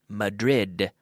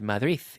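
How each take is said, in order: First: The final d is pronounced as a hard d. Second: The final d is soft or barely heard. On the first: "for us in English, because we pronounce the D's" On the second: "it's not known as Madrid"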